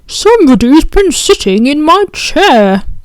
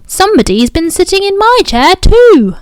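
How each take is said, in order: First: It is said in a deep, rough, gruff voice. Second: It is said in an ordinary, middle voice.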